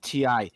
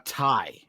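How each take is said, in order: First: It is said as two separate letters. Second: It is said as one word rhyming with 'eye'. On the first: The speaker calls it wrong. "it's not Ti" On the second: The speaker calls it right. "it's a tie"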